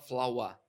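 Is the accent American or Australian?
Australian. It is said in an Australian accent.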